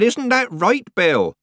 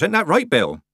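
First: High, slow, loud repeat; raised voice. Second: Said in the usual way. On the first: A narrator's reading. Nanny repeats her question to old Bill, raising her voice. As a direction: spell it out loudly and high. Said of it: "raising her voice". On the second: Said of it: "Nanny repeated".

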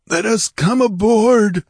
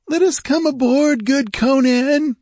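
First: High, loud, slow plea; hairy rogue's raised croak. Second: Very high, loud, pleading whine; wheedling high-voiced pirate; whining pirate. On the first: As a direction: plead as a croaking pirate. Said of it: "croaked a hairy rogue". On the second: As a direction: whine to be let aboard. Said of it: "whined a red-sashed Zamorian". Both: A narrator's reading.

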